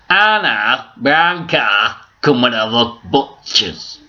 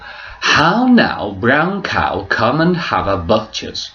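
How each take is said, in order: First: It is said in a Yorkshire-like accent. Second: It is said in a standard English accent.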